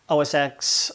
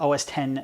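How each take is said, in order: First: The last part is said as the letter X. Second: The last part is said as the number ten. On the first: "calling it O S X" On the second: "depending on how you say it"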